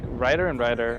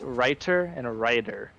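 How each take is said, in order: First: Both words sound the same, spoken quickly. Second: The words sound different, spoken slowly and clearly. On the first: "are the same to me when I'm talking fast" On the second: "if I'm speaking slowly and enunciating"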